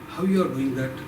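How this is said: The sentence is spoken in a sorrowful tone. "Then sorrow"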